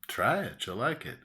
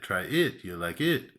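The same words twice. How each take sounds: First: The sentence stress falls in the usual places. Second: The sentence stress falls in odd places. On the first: The speaker calls it right. "we might say" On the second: The speaker calls it wrong. "we don't say, ... it's just too weird"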